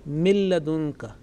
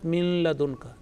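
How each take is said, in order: First: The n fully merges into the l, with no nasal sound. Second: A nasal n sound is heard before the l. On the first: The speaker calls it right. "There is no tinge or trace of any nasal sound" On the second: The speaker calls it wrong.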